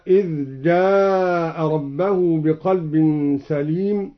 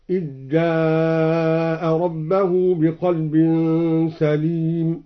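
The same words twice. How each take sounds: First: Said in the usual way. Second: Slow recitation, "إذ جاء" said as "ijjaa'a"; dhal merged into jim. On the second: Shown as a demonstration. Reciter showing Al-Duri's reading, "إذ جاء" as "ijjaa'a". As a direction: chant "إذ جاء" with ذ assimilated into a doubled ج, "ijjaa'a". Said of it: "أدغم الدوري الذال في الجيم".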